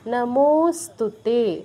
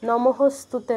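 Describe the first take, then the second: First: The second syllable is a plain o sound. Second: The second syllable carries an added h sound. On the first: The speaker calls it right. "এটা হচ্ছে নমোস্তুতে, নমোস্তুতে উচ্চারণটা হচ্ছে এই" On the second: The speaker calls it wrong. "নমঃস্তুতে নয়"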